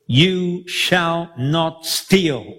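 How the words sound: It sounds like a stern command.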